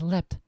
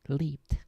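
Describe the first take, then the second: First: The word ends with a short t sound. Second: The word ends with an -ed sound. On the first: The speaker calls it wrong. "my instinct is to pronounce it leapt as if it has a T" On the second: The speaker calls it right. "rather than the ed, which it has here"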